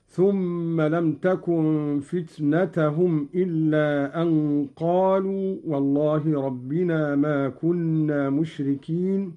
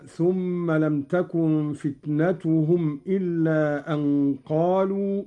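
First: فتنتهم with a on the ta, "fitnatahum"; Qalun reading. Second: فتنتهم with u on the ta, "fitnatuhum"; Hafs reading. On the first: Teacher shows Qalun's accusative reading. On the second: Teacher recites the Hafs reading before Qalun's. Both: Shown as a demonstration. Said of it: "قرأ قالون فتنة بالنصب".

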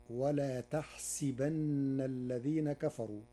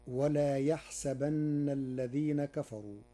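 First: Slow, with تحسبن starting with ta and a kasra on the sin; Warsh reading. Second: يحسبن with a ya sound at the start, recited; Hafs reading. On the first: Teacher shows the Warsh reading of تحسبن with ta, slowly. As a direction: recite تحسبن with ta, then taħsibenna. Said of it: "فتصير". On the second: Teacher recites the verse with يحسبن beginning with ya. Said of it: "قرأ ورش كلمة يحسبن". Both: Shown as a demonstration.

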